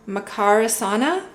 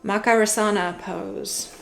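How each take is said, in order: First: Makarasana said tentatively with a questioning rise at the end; unsure emphasis. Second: Makarasana said more softly, with a fuller first syllable MAK; second try at emphasis. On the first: Card reader unsure of a yoga pose name, Makarasana said questioningly. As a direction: try out Makarasana like a question, unsure which syllable to stress. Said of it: "not sure if I put the emphasis".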